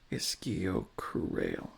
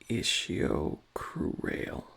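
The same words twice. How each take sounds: First: The 'ch' is said as a 'k' sound. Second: The 'ch' is said as an 'sh' sound. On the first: The speaker calls it right. "the C H might make a K sound rather than a sh sound" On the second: The speaker calls it wrong. "Maybe I'm just pronouncing it incorrectly"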